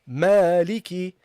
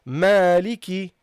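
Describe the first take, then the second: The two takes are said the same way.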